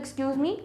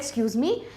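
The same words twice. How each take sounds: First: It sounds like asking to pass by. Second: It sounds like asking someone to repeat.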